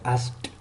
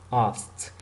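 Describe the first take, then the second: First: The word does not end in a t sound. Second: The word ends in a t sound. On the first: The speaker calls it wrong. "It's not asked" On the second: The speaker calls it right. "This is asked. At the end is like t"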